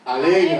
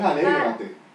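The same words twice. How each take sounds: First: The word is said forcefully, with emphasis. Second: The word is said flatly, without extra force. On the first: The speaker calls it right. "es alégrate, porque tiene una coma" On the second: The speaker calls it wrong. "No es alégrate"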